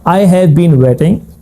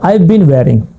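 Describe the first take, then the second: First: Each word is said carefully and separately. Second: The words run together fluently with softened sounds.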